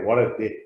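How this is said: It is said in a positive, upbeat tone.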